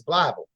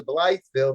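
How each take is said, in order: First: Blytheville worn down to BLY-vul; local pronunciation. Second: Blytheville as BLYTHE-vil; spelling pronunciation. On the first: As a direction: drop the th from Blytheville. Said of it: "that's Blytheville". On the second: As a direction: sound the th in Blytheville. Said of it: "there's a Blytheville that's Blytheville". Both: Shown as a demonstration.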